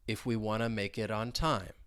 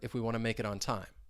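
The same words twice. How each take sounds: First: It is spoken at a slow pace. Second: It is spoken at a faster pace. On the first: "say it slowly and say it with me" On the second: "let's say it a little faster"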